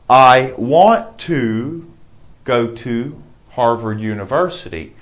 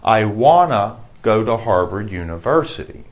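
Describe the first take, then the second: First: Each word of 'want to' is said in full. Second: 'Want to' is blended into 'wanna' without T sounds.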